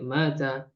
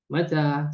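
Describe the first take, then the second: First: The first vowel is held long. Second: The second vowel is held long. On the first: It means died. The speaker calls it wrong. "Tidak mata" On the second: It asks when. The speaker calls it right. "kalau mata ini yang dibaca panjang adalah ta-nya"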